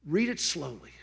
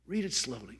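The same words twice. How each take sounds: First: Said in the usual way. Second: "Read" said softly, much quieter the second time; softer repeat. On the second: Shown as a demonstration. Urging the audience again, softly and much quieter. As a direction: drop the voice and ease into it.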